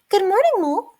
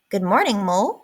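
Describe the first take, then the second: First: It is in Mouse's character voice. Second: It is not in Mouse's character voice.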